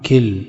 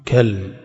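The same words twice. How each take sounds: First: كلم as one syllable, kilm, with an i; kilm plural. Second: كلم as one syllable, kalm, with an a; kalm plural. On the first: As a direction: say كلم with short i and no vowel on the lam. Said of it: "بكسر". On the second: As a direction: say كلم with open a and no vowel on the lam. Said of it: "بفتح الكاف". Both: Shown as a demonstration.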